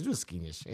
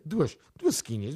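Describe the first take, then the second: First: Mock deep mutter. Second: Slow repeat. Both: Shown as a demonstration. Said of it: "para duasinha".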